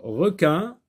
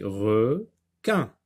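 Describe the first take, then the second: First: Said in the usual way. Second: "requin" slowly as re... quin, with a gap; split into syllables. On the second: Shown as a demonstration. Teacher cutting the word for pupils, syllable by syllable. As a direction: break "requin" into two separate syllables. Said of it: "on sectionne le mot en syllabes".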